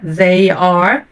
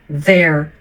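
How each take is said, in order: First: They and are are said as separate words. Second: They and are merge into one syllable.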